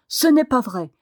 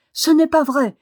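First: Louder furious denial; cri furieux. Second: High, loud indignant outcry; indignation violente. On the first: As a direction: deny it angrily, voice pushed up a little. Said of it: "cria-t-il furieusement". (démenti furieux, voix forte) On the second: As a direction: fling it back, pitched high and loud. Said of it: "dans la violence de son indignation". (cri indigné, aigu et fort) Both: A narrator's reading.

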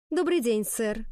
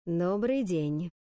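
First: High, ringing, strained greeting; high, tense voice. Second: Slow, drawn-out grave greeting; imposing headmaster. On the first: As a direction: answer the headmaster nervously, pitched up. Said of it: "непривычно высоким, звенящим от внутреннего напряжения". (высоким, звенящим от напряжения голосом) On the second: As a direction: greet the room slowly, with heavy authority. Heavy-footed director greets the class. (медленно и веско) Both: A narrator's reading.

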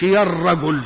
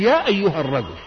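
First: "يا الرجل" said straight onto the article, no أيها; wrong way, "يا الرجل" joined directly; wrong form ya al-ragul. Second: "يا أيها الرجل" with أيها between يا and the noun; right way, "يا أيها الرجل" with the bridge word; correct form ya ayyuha. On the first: Preacher showing the wrong vocative. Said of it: "ما تقولش". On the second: Preacher showing the correct vocative. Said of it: "وقل". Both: Shown as a demonstration.

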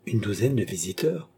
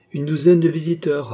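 First: Douzaine with the tune rising to the end, incredulous; amused echo question. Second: Douzaine pitched high and falling, a flat fact; firm statement. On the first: Oliva echoes Cagliostro in disbelief, rising question. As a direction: throw his words back as a disbelieving question. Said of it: "s'écria Oliva en riant". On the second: Cagliostro calmly informs Oliva, higher falling statement. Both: A narrator's reading.

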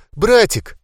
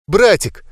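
First: Братик pitched even higher, breaking and falling; the second Братик goes higher and more frantic; higher desperate cry. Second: High tearful cry of Братик; crying out for brother. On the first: Girl calling her brother again, more desperate cry. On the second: Girl crying over her dead brother, tearful call. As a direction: call Братик through sobs, falling at the end. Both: A narrator's reading. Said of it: "Толу сотрясали рыдания".

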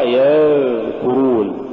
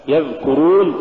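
First: يذكرون with a long buzzing dhal; yadhhh-kurun, exaggerated dhal in يذكرون; overdone softness. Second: يذكرون with the dhal kept brief; moderately flowing dhal in يذكرون; balanced dhal. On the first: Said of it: "فلا تقرأ هكذا". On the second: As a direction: say يذكرون without dragging the dhal. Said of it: "الصواب". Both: Shown as a demonstration.

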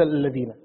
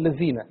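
First: "الذين" with tongue-between-teeth dh, lower; correct dhāl. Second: "الذين" with a buzzing z instead of dh; low demo of Egyptian "allazina" for الذين; Egyptian z for dhāl. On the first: Shown as a demonstration. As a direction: say الذين as "alladhina". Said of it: "بدل". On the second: Retold or imitated. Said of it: "مصريين معروفين يقول".

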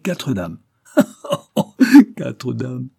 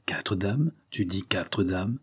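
First: Loud guffaw, then the words; still laughing. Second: Softer, slowing, disbelieving repeat; stupefied. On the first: Priest savours his promise to the officer, still laughing. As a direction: burst out laughing before repeating it. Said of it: "riant toujours". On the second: Marchas repeats the news to the narrator, stupefied. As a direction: echo it under the shock of surprise. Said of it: "Il fut stupéfait". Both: A narrator's reading.

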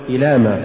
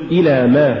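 First: إلى ما fused as one word; weak ما tacked onto إلى; words run together. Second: إلى, then a stressed ما; separate words. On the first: Teacher shows the mistake, إلى ما run together. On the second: Teacher models correct recitation, إلى apart from ما. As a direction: give ما its own weight after إلى. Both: Shown as a demonstration. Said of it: "ولا تقل".

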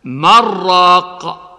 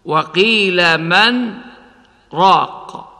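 First: من راق joined with no pause; without sakt. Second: وقيل من راق with a short pause after من; brief silent stop before راق; with sakt. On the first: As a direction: run من into راق smoothly. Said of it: "بدون سكت". (بدون سكت) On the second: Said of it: "بالسكت". (بالسكت على من) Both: Shown as a demonstration.

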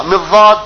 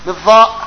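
First: الضاد with the emphatic heavy dad, tongue against the molars; dad sound. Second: الضاء said as an emphatic interdental dha, tongue between the teeth; dha-like dad. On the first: Sheikh teaching students, demonstrating the dad sound. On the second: Sheikh showing students the scholars' dha-like reading. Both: Shown as a demonstration. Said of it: "لها نطق معين".

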